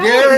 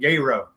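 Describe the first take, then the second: First: The name is said in a plain, standard way. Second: The name is drawled in a local Southern way.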